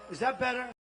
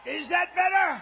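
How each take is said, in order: First: Said in the usual way. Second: Much higher and louder call; shouted mic check. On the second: Real, not acted. Speaker shouting to the back to test the mic, loud.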